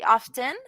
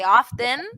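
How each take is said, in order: First: The T in the middle is clearly pronounced. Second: The middle consonant sounds almost like a D. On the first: "you pronounce that T" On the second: "like with a D almost"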